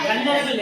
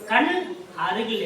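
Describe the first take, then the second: First: The two words are run together into one. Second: The two words are said as separate words. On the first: This is how the term is normally said. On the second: It is split up to make it easier to understand.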